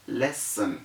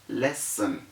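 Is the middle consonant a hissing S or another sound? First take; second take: hissing S; hissing S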